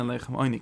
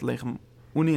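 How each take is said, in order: First: "Oini" said oy-nee, as read aloud; Oini pronunciation. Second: "Uni" said oo-nee, as written; Uni pronunciation. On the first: Teacher showing students how the word is read, Oini pronunciation. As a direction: open "Oini" on an oy glide, not oo. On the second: Teacher showing students how the word is written, Uni pronunciation. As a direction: open "Uni" on a pure oo, no oy. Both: Shown as a demonstration. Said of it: "steht Leichem Uni ins Leine".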